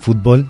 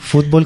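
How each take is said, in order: First: The stress is on the last syllable. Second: The stress is on the first syllable. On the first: "sin acento" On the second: "con acento en la U"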